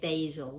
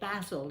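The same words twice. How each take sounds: First: It is pronounced in an American accent. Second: It is pronounced in a British accent. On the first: "The Americans say basil" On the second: "We say basil in England"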